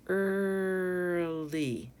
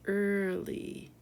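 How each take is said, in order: First: "Early" stretched long on "er", then "ly"; two syllables drawn out. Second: Said in the usual way. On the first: Shown as a demonstration. Teacher shows learners two syllables, "Early" stretched slowly. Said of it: "Two syllables". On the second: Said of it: "Our last word here".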